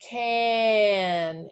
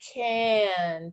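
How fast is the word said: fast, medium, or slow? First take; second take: slow; medium. First: The word is drawn out slowly, sound by sound. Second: The word is said somewhat faster, partly blended.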